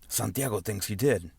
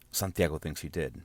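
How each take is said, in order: First: It is said in an exaggerated, cheesy foreign accent. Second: It is said in the speaker's ordinary voice. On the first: "we would say it with like this cheesy Antonio Banderas accent" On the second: "The line was"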